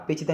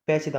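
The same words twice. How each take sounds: First: पेचीदा said with a close e, "pay"; narrow "pe" start. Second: पैचीदा said with a wide ai vowel; open "pai" start. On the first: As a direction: open पेचीदा on "pe", not "pai". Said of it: "नहीं होता". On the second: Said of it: "होता है". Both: Shown as a demonstration.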